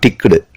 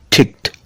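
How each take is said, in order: First: The ending is not a t sound. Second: The ending is a t sound. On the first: The speaker calls it wrong. "Not ticked" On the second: The speaker calls it right. "T sound"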